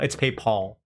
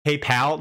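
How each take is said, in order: First: PayPal said firmly, pal falling; his own PayPal, calmly corrected. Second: PayPal with a French-style Paul, rising like a question; mocked PayPal. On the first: Shown as a demonstration. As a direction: insist on his own PayPal with a settled fall. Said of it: "No, it's not PayPal". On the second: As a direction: quote the viewers' PayPal with a quizzical rise. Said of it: "PayPal like the French Paul".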